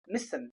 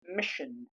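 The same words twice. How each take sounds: First: The middle consonant is a light s sound. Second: The middle consonant is a heavy sh sound. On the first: The speaker calls it wrong. "Not mission" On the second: The speaker calls it right. "The heavier sh is used here"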